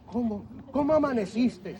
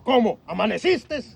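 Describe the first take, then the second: First: It is said in a warm, loving tone. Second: It is said in a cold, annoyed tone.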